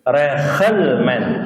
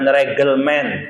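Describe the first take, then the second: First: The middle consonant is an h-like sound. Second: The middle consonant is a hard g. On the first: The speaker calls it right. "kalau di tengah dia tidak baca G, dia bacanya H" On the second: The speaker calls it wrong. "bacanya bukan regelmen"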